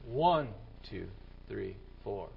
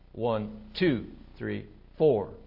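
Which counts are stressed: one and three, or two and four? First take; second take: 1 and 3; 2 and 4. First: The stress falls on one and three. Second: The stress falls on two and four. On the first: This is the regular beat. "The right beat would be" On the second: This is the rock beat. "you have to place the emphasis on the off beats, which is 2 and 4"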